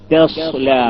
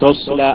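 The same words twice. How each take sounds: First: The first 't' is light and thin. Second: The first 't' is heavy and full. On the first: The speaker calls it right. "തസ്ല അല്ലാതെ" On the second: The speaker calls it wrong. "ആവരുത്"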